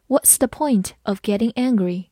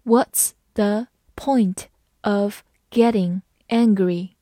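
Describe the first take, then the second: First: Said in the usual way. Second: One word at a time, evenly spaced; very slow, deliberate model sentence; slow reading. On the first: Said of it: "慢慢来读". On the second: Shown as a demonstration. Teacher leads learners through the question, slow word-by-word reading. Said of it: "好，慢慢来读".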